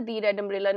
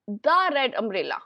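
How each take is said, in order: First: "the" said as "thee" before red, shown wrong; teacher showing the mistake; wrong form "thee". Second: "the" said as a short "duh" before red; slow classroom model phrase. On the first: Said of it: "नहीं आएगा". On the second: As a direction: clip "the" to "duh". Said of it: "the red umbrella आएगा". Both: Shown as a demonstration.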